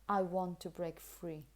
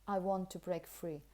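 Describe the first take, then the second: First: The word 'to' is said in a weak form. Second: The word 'to' is said in a weak form.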